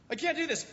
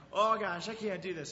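First: Put-on high, loud panicked cry of a kid; panicked shout. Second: Mock panicked kid, loud "Oh gosh"; a frightened kid at the edge, voiced lightly; scared kid. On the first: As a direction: yell it like a terrified kid letting go. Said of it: "they freak out". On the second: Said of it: "Tears start welling up".

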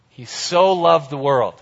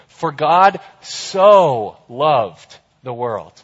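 First: Said in the usual way. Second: For God "so" loved the world, "so" slow and leaned on; stress on so. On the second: Shown as a demonstration. Preacher to youth group, leaning on "so" slowly. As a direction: lean hard on "so" to show how much. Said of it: "An emphatic, an emphatic way to show".

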